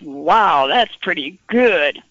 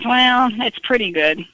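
First: It sounds enthusiastic and impressed. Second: It sounds lukewarm and unimpressed.

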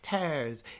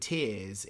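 First: It is said with a Norfolk accent. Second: It is said with a standard accent.

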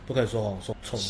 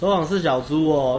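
First: It is said harshly and insultingly. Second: It is said softly and playfully, smiling.

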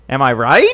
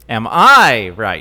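First: The stress is on "right". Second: The stress is on "I".

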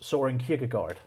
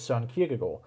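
First: The name is said with an American accent. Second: The name is said with a Danish accent.

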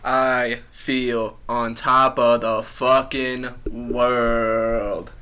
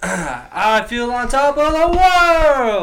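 First: It sounds gloomy and flat. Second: It sounds happy and upbeat.

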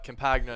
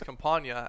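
First: The name has an Americanized pronunciation. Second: The name has an Italian-style pronunciation. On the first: This is the form most announcers use. "most Americanized way to say it" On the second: This is the original family-language form of the name. "The true Italian way is Campagna"

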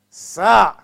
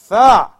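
First: It begins with an s sound. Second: It begins with a th sound. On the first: The speaker calls it wrong. "Not Alif, Ba, Ta" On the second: The speaker calls it right.

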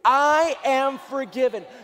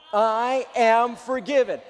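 First: It is said loudly, with strong energy. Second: It is said weakly, without much force.

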